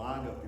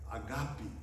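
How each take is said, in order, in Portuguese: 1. A tônica está na penúltima sílaba. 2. A tônica está na última sílaba. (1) "alguns falam ágape, mas não tem esse, essa palavra, não é paroxítona" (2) "uma palavra oxítona"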